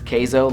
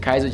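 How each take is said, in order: First: The first vowel sounds like 'ay'. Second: The first vowel sounds like 'eye'. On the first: The speaker calls it right. "it's Keizo, like cheese in Spanish, queso" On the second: The speaker calls it wrong. "I always said Kaizo"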